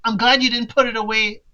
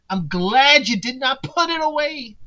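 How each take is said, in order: First: Said in the usual way. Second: "did not" split into two words, each leaned on; stress on "did not". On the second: Shown as a demonstration. Rereading Selena's line, stressing "did not". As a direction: lean on "did not" to make it firm.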